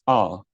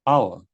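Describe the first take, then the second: The two takes are said the same way.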